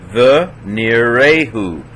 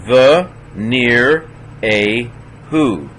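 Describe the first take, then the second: First: "near a who" run together slowly after "The"; closed syllable. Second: "The near a who" in slow, separate syllables; sounded out. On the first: Teacher putting the word together, slowly joined syllables. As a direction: join "near a who" into one word, still slow. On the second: Teacher breaking the word down, slowly syllable by syllable. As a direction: pause after each syllable of "The near a who". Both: Shown as a demonstration. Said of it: "silent schwa closing a syllable".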